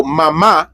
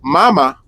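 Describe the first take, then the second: First: "mama" as ma-MA, accented final A; stress on last syllable. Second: "Mama" as MA-ma, stressed up front; stress on first syllable. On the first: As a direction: lean into the second MA of "mama". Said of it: "with the accent means mom". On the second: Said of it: "Mama with no accent". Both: Shown as a demonstration.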